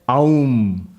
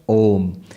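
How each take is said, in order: First: The vowel glides from 'ah' to 'oo'. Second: The vowel is a single 'o' sound. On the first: The speaker calls it wrong. "don't pronounce it as Aum" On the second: The speaker calls it right. "A, U, M pronounced together becomes Om"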